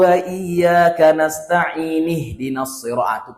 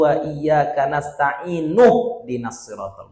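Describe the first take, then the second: First: Nasta'in ends with an i vowel. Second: Nasta'in ends with a u vowel. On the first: The speaker calls it wrong. "Itulah salah" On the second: The speaker calls it right. "pakai dhammah"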